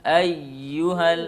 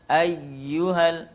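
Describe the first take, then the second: No difference in how they are said.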